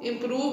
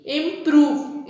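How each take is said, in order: First: Said in the usual way. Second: इम्प्रूव drawn out in two, im-prove; split into syllables. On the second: Shown as a demonstration. Teacher showing two divisions in इम्प्रूव, syllable by syllable. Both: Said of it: "two syllable division में".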